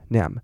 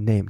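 First: The vowel is a short flat 'a' sound. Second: The vowel glides from 'e' toward 'i'. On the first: The speaker calls it wrong. "大家都会念成nam nam nam" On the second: The speaker calls it right. "然后你变快name name 这样子就对了"

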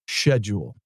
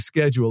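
First: It is said in a fancy, posh-sounding way. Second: It is said in a plain, everyday way. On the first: The speaker is putting on airs. "he said schedule" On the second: This is the ordinary way to say it. "instead of saying schedule"

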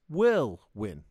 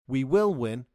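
First: The word will is shortened and joined on. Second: The word will is said in full.

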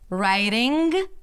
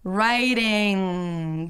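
First: A hard G sound is popped at the end. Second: The NG sound is held and fades out. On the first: The speaker calls it wrong. "not right" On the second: The speaker calls it right. "stretch and hold out the NG sound and then fade it out"

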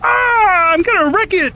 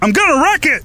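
First: It is said in a high, nasal puppet-frog voice. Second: It is said in a natural-sounding adult man's voice. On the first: "Kermit the Frog" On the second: "that guy sounds just like John C. Reilly"

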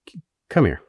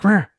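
First: It is said once, calmly. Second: It is said angrily, near yelling.

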